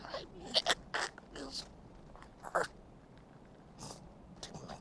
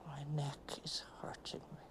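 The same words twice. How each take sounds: First: Word by word with long pauses, first word high; broken by pain. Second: Soft unvoiced whisper; whispered complaint. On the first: [name] pushing out words past her aching neck. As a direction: force each word out through the pain. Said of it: "first said whole in a whisper". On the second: [name] whispering about her aching neck. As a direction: breathe it out in pain. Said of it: "repeated as broken pieces". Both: Real, not acted.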